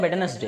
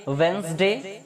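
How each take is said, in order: First: वेडनेसडे said in three syllables, we-de-nes-day; वेडनेसडे with every syllable sounded; full spelling pronunciation. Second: वेडनेसडे said as two syllables, wenz-day; वेडनेसडे clipped to wenz-day, modern English style; modern English pronunciation. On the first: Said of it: "हालांकि वेडनेसडे भी गलत नहीं है". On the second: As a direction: say वेडनेसडे as wenzday, the middle e silent. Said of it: "modern English". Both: Shown as a demonstration.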